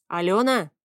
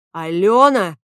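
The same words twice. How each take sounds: First: Drawn-out musing "Алёна"; thoughtful drawl. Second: "Алёна" yelled much louder; shouted name. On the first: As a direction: stretch "Алёна" out, lost in thought. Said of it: "задумчиво протянул Алан". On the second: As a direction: shout "Алёна" at the door in fury. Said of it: "Фавий воскликнул". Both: A narrator's reading.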